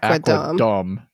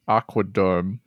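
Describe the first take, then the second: First: It is pronounced with English sounds. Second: It is pronounced with German sounds. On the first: "instead of" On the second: "I'm assuming you meant to pronounce this Germanly"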